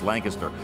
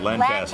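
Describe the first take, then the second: First: It is said the East Coast way. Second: It is said the West Coast way. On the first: "that's the way we pronounce it in the East" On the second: "you pronounce it Lancaster"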